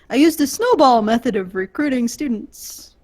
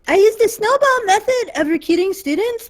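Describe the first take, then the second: First: It is read in a natural voice. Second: It is read in a put-on voice.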